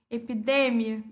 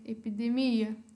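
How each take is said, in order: First: It is said with Spanish word stress. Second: It is said with Portuguese word stress.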